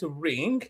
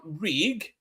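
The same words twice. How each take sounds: First: Rig als ring met nasale ng; mispronounced as ring. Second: Said in the usual way. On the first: Shown as a demonstration. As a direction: maak van rig een ring met een ng aan het eind. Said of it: "they will call it ring". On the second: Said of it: "R I G".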